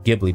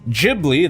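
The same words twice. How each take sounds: First: The word is said the Italian way. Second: The word is said the Japanese way. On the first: "I guess the Italian pronunciation would be Ghibli" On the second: "it is pronounced Ghibli. That is what the katakana spells"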